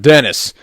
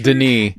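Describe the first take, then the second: First: The name is said with English sounds. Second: The name is said with French sounds. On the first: The speaker calls it wrong. "it's not Dennis either" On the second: The speaker calls it right. "it's it's Denis"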